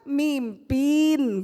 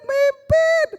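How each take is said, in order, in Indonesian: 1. Diucapkan dengan aksen Semarang. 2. Diucapkan dengan aksen Surabaya yang kental.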